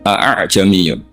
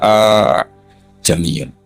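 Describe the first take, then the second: First: Both glottal stops are pronounced fully and separately. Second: The two glottal stops merge into one. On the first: "ditahqiqil hamzatain" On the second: "kita baca idgham"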